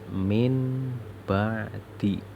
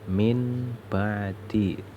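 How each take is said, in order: Both takes have the same delivery.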